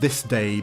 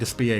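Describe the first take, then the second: First: The name ends in an 'ay' sound. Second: The name ends in an 'uh' sound. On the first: This is the official pronunciation. "I know it's pronounced this day" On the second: This is how most people say it. "I prefer to say Despia because everyone else does"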